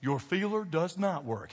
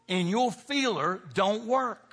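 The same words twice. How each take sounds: First: Said in the usual way. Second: "your feeler don't work" drawn out slow and punched; pastor's deliberately folksy punchline; slow emphatic bad English. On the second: Shown as a demonstration. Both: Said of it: "I know that's bad English".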